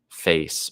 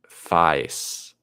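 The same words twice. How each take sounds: First: The vowel sounds like the vowel in 'day'. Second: The vowel sounds like the vowel in 'die'.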